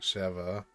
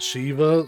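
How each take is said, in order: First: The first vowel sounds like 'eh'. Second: The first vowel sounds like 'ee'. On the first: This keeps the name apart from other figures. "I like saying it like Sheva" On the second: This is how the name is probably meant. "they probably pronounce it Shiva since there's two E's"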